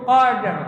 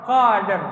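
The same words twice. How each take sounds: The two takes are said the same way.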